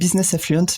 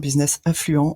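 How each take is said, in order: First: The name is pronounced with English sounds. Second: The name is pronounced with French sounds. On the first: "c'est parce que j'aime bien l'anglais" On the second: "en français, ça marche aussi"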